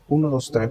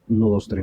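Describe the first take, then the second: First: The voice goes through a crisp, clear filter. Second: The voice goes through a soft, smooth filter. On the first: "Hoy este se llama nítido" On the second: "Luego está este otro que se llama Suave"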